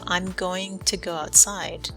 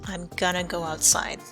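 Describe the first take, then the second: First: Going to is said in full, two clear words. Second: Going to is reduced to one short word, gonna. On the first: "instead of" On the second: "we usually say gonna"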